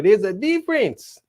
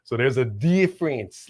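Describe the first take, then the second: First: "difference" lauter und höher betont; emphatic repeat. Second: Said in the usual way. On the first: Shown as a demonstration. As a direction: press "difference" up and louder.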